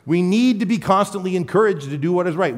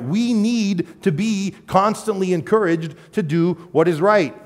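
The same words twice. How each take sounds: First: Said in the usual way. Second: Every word slow and weighted, We need to be constantly encouraged; slow, deliberate, hitting each word of what is right; slow emphatic repeat. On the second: Shown as a demonstration. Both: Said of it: "repeated slower for emphasis".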